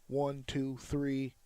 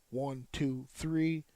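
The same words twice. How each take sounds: The two takes are said the same way.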